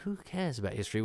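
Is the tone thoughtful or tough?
thoughtful. The line is said in a musing tone. "he does it as a kind of philosophical, oh"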